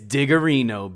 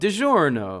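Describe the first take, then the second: First: The name is said with four syllables. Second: The name is said with three syllables. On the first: This is a habitual joke version of the name. The speaker calls it wrong. "I've been calling it Digarino for years" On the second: This is the actual name of the brand. The speaker calls it right. "the real pronunciation"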